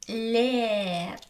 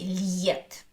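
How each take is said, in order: First: There is no y sound before the vowel. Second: A y sound comes before the vowel. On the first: The speaker calls it right. "there is no sound y" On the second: The speaker calls it wrong. "I don't say liet"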